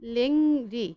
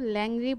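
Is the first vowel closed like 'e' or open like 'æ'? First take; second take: closed; open. First: The vowel is a closed 'e' sound. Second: The vowel is an open 'æ' sound. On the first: The speaker calls it right. "যেমন দেখো লেংরি" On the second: The speaker calls it wrong. "আমরা কিন্তু ল্যাংরি বলছি না"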